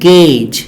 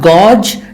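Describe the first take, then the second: First: The vowel is an E-like 'ay' sound. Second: The vowel is not an E-like sound. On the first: The speaker calls it right. "the A U sound is it is pronounced as E sound" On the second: The speaker calls it wrong. "not gauge"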